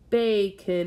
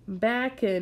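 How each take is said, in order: First: The first vowel is a long 'a' sound. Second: The first vowel is a short 'a' sound. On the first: The speaker calls it right. "So now I'm going to try it again" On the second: The speaker calls it wrong. "we're going to try reading the word using the short A sound, ah"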